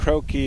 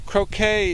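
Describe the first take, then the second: First: The word is said the English way. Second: The word is said the French way. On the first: "it's more of the English pronunciation" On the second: "croquet is the French pronunciation"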